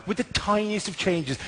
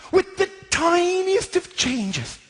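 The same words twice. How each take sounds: First: Said in the usual way. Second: High, slow, drawn-out build-up; dramatic emphasis. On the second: Shown as a demonstration. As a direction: stretch each word for suspense.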